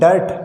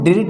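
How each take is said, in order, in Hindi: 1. स्वर 'ur' की आवाज़ है। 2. स्वर एक छोटी 'i' की आवाज़ है। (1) "आई का उच्चारण ए" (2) "अब इसको हम डिर्ट नहीं पढ़ेंगे"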